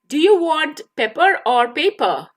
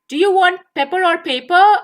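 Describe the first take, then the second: First: It is said at a slower, careful pace. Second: It is said at a quicker pace.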